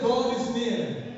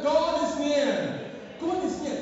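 First: Emphatic declaration. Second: Louder, higher and much slower, every word driven home; emphatic repeat. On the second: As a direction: call it out again so the whole church hears. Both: Shown as a demonstration. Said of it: "Have I, have I lost my people?".

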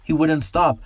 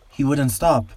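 First: Higher, more panicked repeat; second take, pitched higher and more desperate; more frightened. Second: Higher, scared man's plea; frightened man. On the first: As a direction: say it again, rising toward panic. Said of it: "shaking in fear". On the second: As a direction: plead it, shaken and afraid. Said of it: "whispers the man". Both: A narrator's reading.

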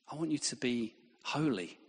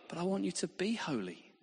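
First: Said in the usual way. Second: "be" lifted and leaned on; stress on be. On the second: Shown as a demonstration. God insisting, stressing "be" in "be holy". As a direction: press the word "be" in "be holy". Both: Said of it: "Not be holy".

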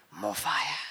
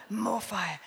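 First: Little roar. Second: Said in the usual way. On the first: Retold or imitated. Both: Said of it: "It was a roar".

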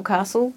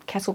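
First: "castle" as "CAH-sul"; long-vowel pronunciation. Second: "castle" as "CASS-ul"; short-vowel pronunciation. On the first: Guest compares variant pronunciations for host, long "ah" version. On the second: Guest compares variant pronunciations for host, short "a" version. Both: Shown as a demonstration. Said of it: "yeah, different. It's like".

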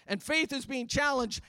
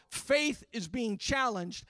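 First: Said in the usual way. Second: Slow and deliberate on faith is being challenged; grave slow warning; slow, weighty. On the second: Shown as a demonstration. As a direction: let each word of faith is being challenged land slowly.

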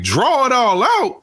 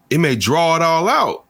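First: High, slow rising "Draw it all out?"; incredulous echo. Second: Said in the usual way. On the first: Retold or imitated. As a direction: repeat it back in disbelief. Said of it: "And I was like". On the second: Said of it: "He's like".

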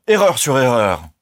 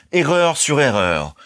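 First: Loud outraged outburst; exclaimed. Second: Slow, high, scornful repeat; contemptuous. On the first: Colonel exploding at the young man, loud outrage. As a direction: cry it out in scorn. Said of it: "s'écria-t-il". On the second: Colonel dismissing Ernest's theories, slow scorn. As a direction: drag out each word in disdain. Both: A narrator's reading.

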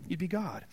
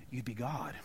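First: "God" restated, lifted; a firmer second "You'd be God"; emphatic repeat. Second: Soft, low "you'd be God"; "God" sinking to a hush; dropped low. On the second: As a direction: let it fall almost silent. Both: Shown as a demonstration.

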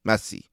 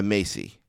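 First: Messi said with a short E, MESS-ee. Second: Messi said with a long AY, MAY-see. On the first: Podcaster offering the other way, Messi as MESS-ee. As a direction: say Messi to rhyme with dressy. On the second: Podcaster predicting the award winner, Messi as MAY-see. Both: Shown as a demonstration. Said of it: "I like to say it both ways".

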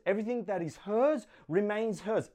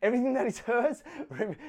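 First: Said in the usual way. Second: Higher, laughing through the retake. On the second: Shown as a demonstration. To the church after his joke, laughing retake. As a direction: correct the joke with a laugh breaking in. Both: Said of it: "I'm kidding".

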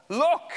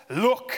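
First: "Look!" barked much higher and loud, rising. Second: "Look." said sharply and loud, rising; the elder son snaps "Look" at his father; curt "Look". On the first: Resentful son barks "Look!" at his father. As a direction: throw "Look!" at him like an insult. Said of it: "How offensive". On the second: Son addressing father rudely, curt "Look.". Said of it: "He doesn't address him as father". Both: Retold or imitated.

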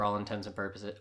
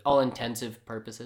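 First: Said in the usual way. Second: "intensive" run together as one word; deliberate malapropism. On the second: Shown as a demonstration. Jokingly garbling a stock phrase, "intensive" as one word. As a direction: say "intensive" clearly in place of intents and.

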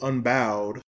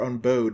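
First: "Unbowed" said slowly with bow as in bending; alternate pronunciation. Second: "Unbowed" said with bow as in bow and arrow; second reading of "Unbowed", with a long o; alternate pronunciation. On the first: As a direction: draw out "Unbowed", as in not bowing down. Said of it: "depending on how you want to put it". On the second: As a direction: say "Unbowed" rhyming with code. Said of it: "she uses a bow". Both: Shown as a demonstration.

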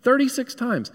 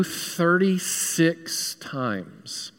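First: "Thirty-six times" jumped up high and punched; emphatic repeat. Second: "thirty-six times" stretched very slow and soft, each syllable lingering; drawn out slowly. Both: Shown as a demonstration.

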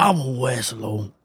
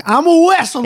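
First: Slow and much softer; small mock voice. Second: Very high-pitched excited impression; mock wrestler kid. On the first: Ending the towel costume joke, soft slow mock voice. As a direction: trail it out as a quiet pretend declaration. Same costume act, voice dropped. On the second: Teasing co-host about wrapping up in towels, high mock voice. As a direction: squeal it like a child playing dress-up. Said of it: "be like".

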